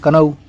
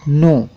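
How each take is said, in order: First: The word starts with a k sound. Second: The word starts directly with an n sound. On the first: The speaker calls it wrong. "बहुत से लोग पढ़ेंगे कनऊ, कनऊ मत पढ़िएगा यार" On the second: The speaker calls it right. "नो होता है"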